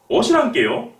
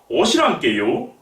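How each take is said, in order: The two takes are said the same way.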